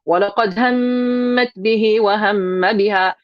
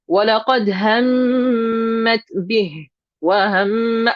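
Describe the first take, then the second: First: It is recited straight through without a pause. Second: It is recited with a short pause inside.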